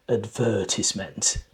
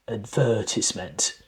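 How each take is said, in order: First: The stress is on the second syllable. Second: The stress is on the second syllable.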